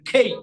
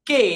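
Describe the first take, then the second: First: A breathy, aspirated k with a gliding vowel. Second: A plain k with a pure vowel. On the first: The speaker calls it right. "আজকে থেকে বলবেন খেই" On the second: The speaker calls it wrong. "আমরা normally বলি কে"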